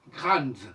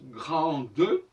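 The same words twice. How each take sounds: First: No final vowel is sounded after the D. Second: A final vowel is sounded after the D. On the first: The speaker calls it right. "On ne doit pas prononcer le E" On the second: The speaker calls it wrong. "on ne doit pas dire grande"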